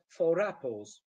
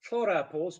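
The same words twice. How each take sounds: First: "four apples" linked as "fo-rapples"; "four apples" said as one word with an r; linking r. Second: Said in the usual way. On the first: Shown as a demonstration. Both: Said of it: "becomes four apples".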